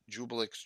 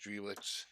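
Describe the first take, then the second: First: The name begins with a j sound. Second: The name begins with a d sound. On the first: This is how the other person says the name. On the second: This is how the speaker always said the name.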